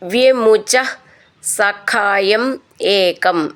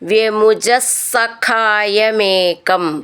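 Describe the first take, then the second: First: The final two words are said separately. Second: The final two words run together as one.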